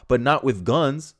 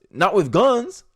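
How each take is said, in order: First: Said in the usual way. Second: GUNS pitched up into a questioning rise; incredulous repeat. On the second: Acted. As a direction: repeat it in disbelief, lifting "guns" at the end.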